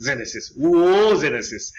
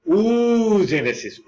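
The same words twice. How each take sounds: First: Oogenesis with a short oo, slowly; short u variant. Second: Oogenesis with a long drawn-out oo. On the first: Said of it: "কোনো কোনো বইয়ে লেখা আছে". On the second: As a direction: stretch the oo in oogenesis slowly. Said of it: "উচ্চারণ একটু টান আছে". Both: Shown as a demonstration.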